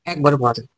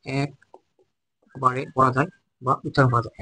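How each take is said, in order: First: Said in the usual way. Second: Very slow and softer, every word spaced; slow dictation. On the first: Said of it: "first take before slow repeat". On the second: Shown as a demonstration. Teacher repeating the definition slowly and softly for students. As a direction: read it out slowly so the class can write it down. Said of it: "slow repeat for students to note".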